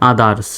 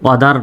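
First: "others" opening on an open a, like "a-dars"; correct a sound. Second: "other" opening on an o, like "wa-dar"; o-sound version of "other"; mistaken o sound. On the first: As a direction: start "others" with a, as in aa. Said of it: "আর মতো উচ্চারিত হবে". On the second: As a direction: start "other" with a rounded o. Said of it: "other নয়". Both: Shown as a demonstration.

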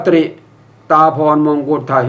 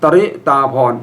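First: ตริ run together as one syllable "tri"; wrong reading. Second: ตริ split into two syllables, "ta-ri"; short a between t and r in ตริ; correct reading. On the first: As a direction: consonant cluster tr in ตริ, no vowel between. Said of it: "อย่าอ่านว่าตริ". (อ่านผิดเป็น ตฺริ ควบกล้ำพยางค์เดียว) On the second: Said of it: "ให้อ่านว่า". (อ่านให้ถูกว่า ตะ-ริ สองพยางค์) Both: Shown as a demonstration.

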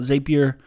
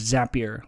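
First: Zapier said as ZAY-pee-er; alternate pronunciation. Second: Zapier said as ZAP-ee-er; rhymes with happier. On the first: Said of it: "some people call it". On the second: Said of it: "like happier". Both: Shown as a demonstration.

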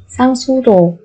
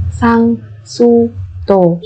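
First: Said in the usual way. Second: Slow, separated syllables for learners; careful teacher's slow model. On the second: Shown as a demonstration. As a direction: spell it out slowly, beat by beat.

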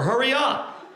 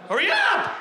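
First: Impatient urging. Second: High-pitched, exasperated holler; impatient yell. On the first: Customer urging staff, first take. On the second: Waiting customer yelling at slow kitchen staff, high and impatient. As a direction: yell it at the top of the voice. Same order repeated much higher. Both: Acted.

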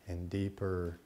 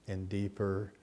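The two takes are said the same way.

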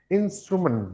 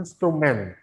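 First: "Instrument" higher start, weak "mən" ending; correct "instrument". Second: "instrumen" with a full "MEN" ending; wrong "instrument". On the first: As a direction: swallow the last vowel of "Instrument". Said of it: "men, ya". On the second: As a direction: give the last syllable a clear E. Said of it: "bukan instrumen". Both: Shown as a demonstration.

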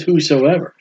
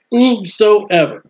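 First: Said in the usual way. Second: Whosoever drawn out slowly, each syllable weighted; slow stressed whosoever. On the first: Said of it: "he says". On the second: Shown as a demonstration. Preacher nailing the word down for the congregation, slow and stressed. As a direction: lean hard on Whosoever, slow and deliberate. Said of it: "You can nail this down".

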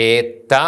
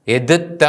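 First: ഏത്ത merged into one doubled t; correct reading. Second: എതുത്ത with both letters sounded; wrong reading. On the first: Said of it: "എന്നാണ് ഉച്ചരിക്കുന്നത്". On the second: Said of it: "എന്ന് ഉച്ചരിക്കില്ല". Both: Shown as a demonstration.

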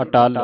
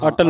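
First: ਅਟਲ with a long aa, "a-TAAL"; long second vowel. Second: ਅਟਲ with a short, quick second vowel; wrong short vowel. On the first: Teacher corrects pupil's reading of ਅਟਲ, long-vowel model. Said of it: "ਅਟਲ ਪੜ੍ਹਨਾ ਹੈ". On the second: Teacher warns pupil how not to read ਅਟਲ, short-vowel version. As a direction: say ਅਟਲ hurriedly, no long aa. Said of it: "ਅਟਲ ਨਹੀਂ ਪੜ੍ਹਨਾ". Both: Shown as a demonstration.

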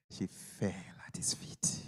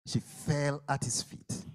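First: Slow, hushed whisper. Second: Said in the usual way. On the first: Acted. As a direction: drop to a reverent whisper. Preacher hushes the scene.

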